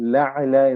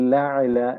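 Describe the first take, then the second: The two takes are said the same way.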